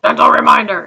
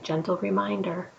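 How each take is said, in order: First: It is said loudly and harshly. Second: It is said quietly and gently.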